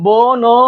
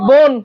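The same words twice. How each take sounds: First: "বোন" broken into two drawn-out beats, bo, no; split pronunciation. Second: "বোন" in a single unbroken beat, bon; one syllable. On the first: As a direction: say "বোন" wrongly as separate bo and no. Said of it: "এরকম করেন". ("বোন" ভেঙে বো-ন উচ্চারণ) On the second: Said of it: "খালি বোন". ("বোন" একবারে উচ্চারণ) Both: Shown as a demonstration.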